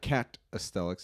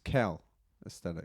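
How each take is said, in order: First: The first syllable ends with a T sound. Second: The first syllable ends with an L sound. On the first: The speaker calls it wrong. "It's not cat aesthetics" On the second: The speaker calls it right. "It's cal aesthetics"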